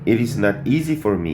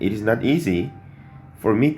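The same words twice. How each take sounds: First: The phrase breaks after 'me', grouping 'for me'. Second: The phrase breaks after 'easy', before 'for me'. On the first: The speaker calls it wrong. "이렇게는 안 해요" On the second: The speaker calls it right. "이렇게 되거든요"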